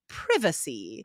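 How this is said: It is said with a British pronunciation. "in the U K, you would hear privacy"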